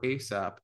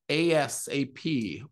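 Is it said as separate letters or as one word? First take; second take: one word; separate letters. First: It is said as a single word. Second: Each letter is said separately.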